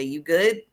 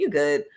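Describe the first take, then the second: First: You good rising at the end like a question. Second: "You good?" falling at the end, said as a statement; flat statement you good. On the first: Speaker shows one sense of the words, asking with a rise. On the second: Speaker shows the other sense of the same words, stating it flat. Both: Shown as a demonstration. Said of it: "if I say".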